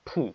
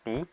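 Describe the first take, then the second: First: The t is said with a strong puff of air. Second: The t is said without a puff of air. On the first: The speaker calls it right. "টকে just ঠ বলে ফেলবো" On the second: The speaker calls it wrong. "আমরা আগে পড়তাম টি"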